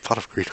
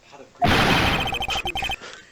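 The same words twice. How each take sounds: First: Said in the usual way. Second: "Pot of Greek" squeaked very high and slow; squeaky card call. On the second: Shown as a demonstration.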